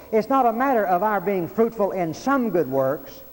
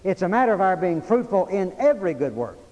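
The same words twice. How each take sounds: First: "some" set up for contrast, voice raised; emphatic preaching, "some" punched; stress on SOME. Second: "every" punched hard as the correction; emphatic preaching, weight landing on "every"; stress on EVERY. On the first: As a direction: lean on "some" as the rejected idea. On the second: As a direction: drive "every" home with raised voice. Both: Shown as a demonstration. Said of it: "notice the emphasis there".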